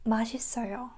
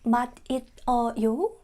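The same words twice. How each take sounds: First: The syllables run together, linked smoothly. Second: The syllables are said separately, not linked. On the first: The speaker calls it right. "we say" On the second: The speaker calls it wrong. "Instead of saying"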